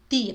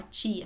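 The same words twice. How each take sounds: First: "tia" with a pure t, no tch; Spanish T. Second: "tia" softer, opening on tch; wrong Portuguese T. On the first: Teacher showing the right sound, Spanish T. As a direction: begin "tia" on a plain tongue-tip t. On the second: Teacher showing what to avoid, tch sound. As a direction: begin "tia" like tchia. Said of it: "Não fala". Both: Shown as a demonstration.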